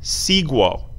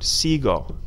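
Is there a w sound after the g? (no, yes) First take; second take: yes; no. First: The g is followed by a w sound. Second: The g is hard with no w sound. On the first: The speaker calls it wrong. "we don't want these U's in them" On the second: The speaker calls it right. "Hard G sound"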